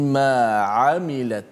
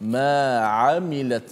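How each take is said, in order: Both takes have the same delivery.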